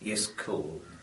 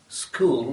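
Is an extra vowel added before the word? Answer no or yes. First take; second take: yes; no. First: A short vowel is added before the s sound. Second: The word starts directly with the s sound.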